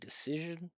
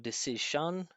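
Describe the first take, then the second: First: The final syllable has no vowel. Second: The final syllable has a full vowel. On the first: The speaker calls it right. "It'd be decision" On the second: The speaker calls it wrong. "No decision"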